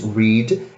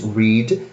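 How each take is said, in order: First: It is said with the present-tense pronunciation. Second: The same.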